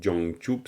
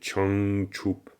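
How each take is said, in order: First: The word begins with a soft j sound. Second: The word begins with a ch sound. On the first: The speaker calls it wrong. "c'est pas du tout Jangchup" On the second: The speaker calls it right. "T C H s'il fallait faire une, de la phonétique"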